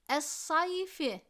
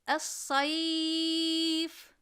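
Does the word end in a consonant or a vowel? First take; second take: vowel; consonant. First: The word ends with a final i vowel. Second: The word ends on a bare consonant. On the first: "Kelimenin son harfinin harekesi esredir" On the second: "Esre gider, yerine cezim gelir. Es-sayf diyerek dururuz"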